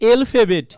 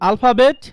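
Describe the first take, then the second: First: The first vowel is an 'e' sound. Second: The first vowel is an open 'a' sound. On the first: The speaker calls it wrong. "এলফাবেট না, এ, এ বলতে কোনো কথা নাই" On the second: The speaker calls it right. "এটা দুইটা pronunciation আছে"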